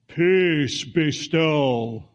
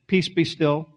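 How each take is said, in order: First: It is said in a loud, dramatic way. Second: It is said in a quiet, casual way.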